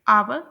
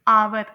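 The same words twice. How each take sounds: First: It is said with a British accent. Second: It is said with an American accent. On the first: "UK में" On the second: "US में"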